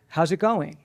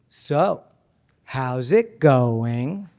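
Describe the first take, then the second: First: It sounds cheerful and upbeat. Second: It sounds drawn out and doubtful.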